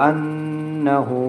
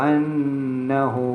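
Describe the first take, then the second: The two takes are said the same way.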